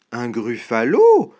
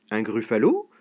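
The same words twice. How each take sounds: First: "Un gruffalo" louder, with the last syllable punched; emphatic exclamation. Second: "Un gruffalo" low, rising at the end; puzzled question. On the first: Mouse amazed at the snake's ignorance, emphatic "Un gruffalo". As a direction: punch the end of "Un gruffalo", then fall. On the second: Snake asking about an unknown beast, puzzled rising "Un gruffalo". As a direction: ask "Un gruffalo" low, lifting the last syllable. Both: Acted.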